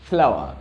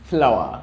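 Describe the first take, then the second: Both takes have the same delivery.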